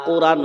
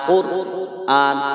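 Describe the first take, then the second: First: The syllables run together smoothly as one. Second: The syllables are split by a glottal catch. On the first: The speaker calls it wrong. "নয়, রয়ে আকার দুন্তন্ন রান হবে না" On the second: The speaker calls it right. "সবাই বলেন কোর আন"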